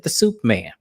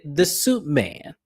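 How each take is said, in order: First: SOUP said with a closing p sound; "soup", ending on the lips with p; misheard as soup. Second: "soup" said slowly as SUIT, with a t; slow, careful "suit" in place of "soup"; clarifying suit. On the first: Co-host quotes Heather's mishearing, soup with a p. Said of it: "we all thought you said soup". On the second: Co-host quotes Lisa correcting the mishearing, soup becomes suit. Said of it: "Did you say soup or suit?". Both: Retold or imitated.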